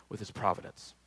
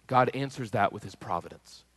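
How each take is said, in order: First: A quiet reflective echo of "with his providence"; soft echo. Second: Said in the usual way. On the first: Real, not acted. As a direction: repeat the phrase much softer, almost to yourself.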